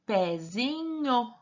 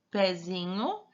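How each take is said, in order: First: Pezinho stretched slowly, every syllable held; drawn-out trial reading. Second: Said in the usual way. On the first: Shown as a demonstration. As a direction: sound out Pezinho at a crawl, lingering on nho. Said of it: "Agora, vamos tentar com nho". (Pezinho bem arrastado, sílaba por sílaba) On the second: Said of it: "é correto".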